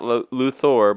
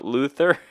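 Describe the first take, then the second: First: The name is said the usual Luthor way. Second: The name is said like Luther. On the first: The speaker calls it wrong. "not Luthor" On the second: The speaker calls it right. "but Luthor. Like Martin Luther"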